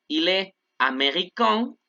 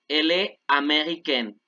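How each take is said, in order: First: "américain" ending in a nasal vowel, no n heard; slow, end "américain" on a nasal vowel; nasal masculine ending. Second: "américaine" ends with a clear n, "ah-may-ree-KEN"; pronounced n ending. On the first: Teacher modelling the nasal masculine ending. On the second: Teacher contrasting the feminine with a clear n. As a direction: sound the n at the end of "américaine". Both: Shown as a demonstration. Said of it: "ojo con la pronunciación".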